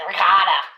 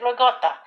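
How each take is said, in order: First: It is said the Texan way. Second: It is said the Italian-American way.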